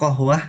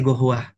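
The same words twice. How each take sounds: First: Said in the usual way. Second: Kohwah said as gohwah, the k turned into a hard g; qaf as g. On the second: Shown as a demonstration. Teacher demonstrating dialect qaf as g in gohwah. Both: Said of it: "kof itu jadi gohwah".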